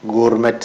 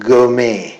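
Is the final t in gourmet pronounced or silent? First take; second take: pronounced; silent. First: The final t sound is pronounced. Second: The final t sound is silent. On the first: The speaker calls it wrong. "എന്നല്ല പറയുക" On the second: The speaker calls it right. "ഇങ്ങനെയാണ് pronounce ചെയ്യുക"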